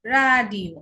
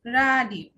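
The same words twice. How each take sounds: First: রাডিও said louder as a model, falling; German word demo. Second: রাডিও repeated, falling; German word repeated. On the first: (German উচ্চারণে রাডিও) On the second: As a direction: echo রাডিও for the students. (রাডিও আবার বলা) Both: Shown as a demonstration. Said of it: "ডয়েসে আর কে বলা হয় এর".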